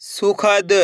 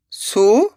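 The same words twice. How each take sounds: First: Said in the usual way. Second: Each syllable sounded separately, pauses between; letter by letter. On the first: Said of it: "तो मिलके बन जाएगा". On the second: Shown as a demonstration. Teacher sounds out a word for beginners, letter by letter. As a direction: break the word into its letters, slowly. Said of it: "एक ही अक्षर का उच्चारण".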